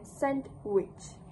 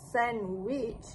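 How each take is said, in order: First: The d sound in the middle is pronounced. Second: The d sound in the middle is dropped. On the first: This is careful dictionary-style speech. "rather than sandwich" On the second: This is casual or rapid speech. "the participant said sandwich rather than"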